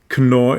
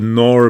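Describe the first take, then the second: First: The name is pronounced the German way. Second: The name is pronounced the English way. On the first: "in German" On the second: "how an English speaker would pronounce that"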